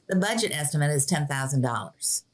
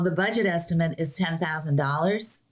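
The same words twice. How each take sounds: First: The pitch falls at the end like a statement. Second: The pitch rises at the end like a question. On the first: The speaker sounds sure and confident. The speaker calls it right. "instead of saying" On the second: The speaker sounds unsure and not confident. The speaker calls it wrong. "with a question mark at the end"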